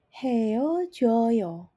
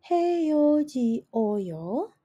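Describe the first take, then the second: First: The vowels merge into a single syllable. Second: The vowels are said as separate syllables. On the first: The speaker calls it right. "bunyinya langsung akan menjadi heojoyo" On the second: The speaker calls it wrong. "bunyinya tidak menjadi heoji oyo"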